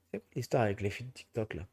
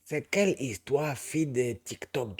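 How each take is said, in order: First: Said in the usual way. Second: Put-on Ivorian accent. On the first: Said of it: "blague à part". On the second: Asking about TikTok girls in a light Ivorian accent. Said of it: "coupé accent ivoirien".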